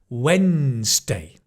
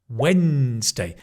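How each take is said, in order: The two takes are said the same way.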